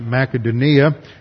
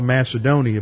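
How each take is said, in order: First: The name is said the local Greek way. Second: The name is said the usual English way. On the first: This is how the local people say it. "They pronounce it Macedonia" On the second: This is how English speakers say it. "we call it Macedonia"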